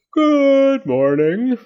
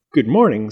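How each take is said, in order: First: High, very slow drawn-out greeting; slow sleepy moth. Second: Said in the usual way. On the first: A narrator's reading. The big moth wakes and greets Fletcher and Zenobia, slow and drawn out. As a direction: stretch it like a giant moth waking.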